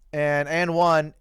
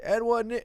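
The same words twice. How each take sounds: First: Said in the usual way. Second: Higher, hammed-up "And one" yelled like a playground call; mock and-one call. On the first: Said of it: "I said". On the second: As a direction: sell the fake "And one" call, higher and showy. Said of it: "no, I'm kidding. I didn't say that".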